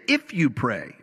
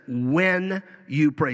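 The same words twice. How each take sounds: First: "If you pray" with "If" lightly hit as the wrong word; stress on if. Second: "When you pray" with "When" drawn out, slow and firm; stress on when. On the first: Preacher contrasting "If" against "When", light stress. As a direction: tap "If" as the version Jesus never said. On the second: Preacher stressing that Jesus said "When", slow and firm. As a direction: lean on "When", as a certainty. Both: Shown as a demonstration. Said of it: "He didn't say".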